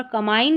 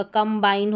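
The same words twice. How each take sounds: First: कंबाइन as "kamain", b dropped; wrong pronunciation. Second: कंबाइन as "kam-bain"; b pronounced. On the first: Teacher showing the mistake, कंबाइन without b. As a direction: leave the b out of कंबाइन. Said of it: "कंबाइन नहीं होगा". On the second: Teacher correcting, कंबाइन with b sounded. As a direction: sound the b starting the second syllable of कंबाइन. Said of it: "बी यहाँ पर पढ़ा जाएगा". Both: Shown as a demonstration.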